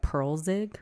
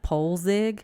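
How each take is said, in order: First: The first vowel sounds like 'pearl'. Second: The first vowel sounds like 'pole'. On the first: This is how the movie says the name. The speaker calls it right. "in the actual movie they pronounced it like Pearlzig" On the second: This is the speaker's own guess at the name. The speaker calls it wrong. "I thought I was pronouncing his last name right"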